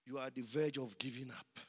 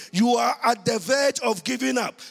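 First: Soft and quick; quiet. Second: Loud and high; shouted preaching. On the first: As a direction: say it low and fast, almost confiding. Quiet aside, later shouted. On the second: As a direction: shout it to the whole church. Same line shouted in preaching. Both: Acted.

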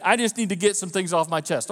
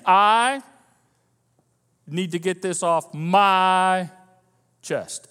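First: Said in the usual way. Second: "I" drawn out loud, pause, then "my" stretched long; slow, stressed I and MY. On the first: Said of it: "say that to yourself a couple of times a little slowly". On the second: Shown as a demonstration. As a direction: say it slowly, leaning hard on "I" and "my". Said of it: "a little slowly and think about what you're saying".

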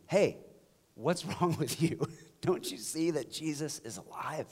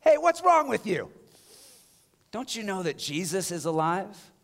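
First: Softer, gently amused invitation; nice, gentle take. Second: Porch practice shout. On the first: Pastor showing how to greet people nicely, soft and gentle. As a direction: ask kindly with a little laugh. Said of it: "addressing people in our life nicely". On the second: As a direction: belt it from the porch. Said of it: "just practice". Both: Shown as a demonstration.

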